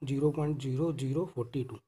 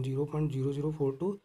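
First: फ़ोर्टी टू read as one number, forty-two, after the point; wrong reading. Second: Digits after the point read one by one, फ़ोर then टू as separate digits; each decimal digit named on its own; correct reading. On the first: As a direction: join the digits into फ़ोर्टी टू, the mistaken way. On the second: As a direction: say फ़ोर टू as two single digits, not a number. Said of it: "इसको हम भी ऐसे पढ़ेंगे". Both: Shown as a demonstration.

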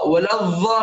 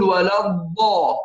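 First: ولا الضا with a buzzing ظ for ض; mispronunciation demo. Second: ولا الضا with a pressed heavy ض, long vowel; correct Dad. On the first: Teacher shows the mistake, ولا الضا with ظ sound. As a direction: let the ض in ولا الضا buzz like dh. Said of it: "ولا الضا خطأ". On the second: Teacher corrects it, ولا الضا with heavy ض. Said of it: "نقول ولا الضا". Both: Shown as a demonstration.

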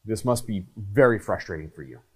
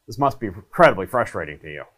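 First: Steady, unhurried and sincere; calm empathetic words. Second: Quick, rushed, throwaway delivery; rushed empathy line. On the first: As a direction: look them in the eye and say it calmly. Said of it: "you're just using the words". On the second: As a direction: rattle it off without meaning it. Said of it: "you're not saying". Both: Shown as a demonstration.

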